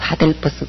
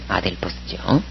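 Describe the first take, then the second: First: The word begins with a breathy h sound. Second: The word begins directly with a vowel. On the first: The speaker calls it wrong. "하델퍼스 그렇게 안 외웠다면" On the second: The speaker calls it right.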